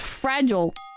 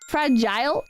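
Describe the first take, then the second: First: It is said with an American pronunciation. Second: It is said with a British pronunciation. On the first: The speaker is talking casually. "fragile is like normal" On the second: The speaker is being precise and enunciating. "Fragile is U K"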